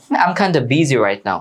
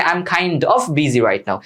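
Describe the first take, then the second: First: Kinda run together, ending in "duh"; slow model sentence with a linked kinda; spoken reduced form. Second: Kind of said in full, the "of" clearly sounded; slow model sentence with a distinct of in kind of; full form. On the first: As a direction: merge kind and of into kinda. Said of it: "খাইন্ডা বলতে পারো". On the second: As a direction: separate kind of into its two words. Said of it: "মানে". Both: Shown as a demonstration.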